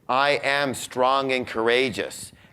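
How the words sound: It is said with deep, heartfelt conviction.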